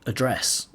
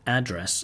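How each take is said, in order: First: "address" stressed on the second syllable; British "address", beat on DRESS. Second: "address" stressed on the first syllable; American "address", beat on AD. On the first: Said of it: "in British English". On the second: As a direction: say "address" as AD-dress. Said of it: "in American English". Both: Shown as a demonstration.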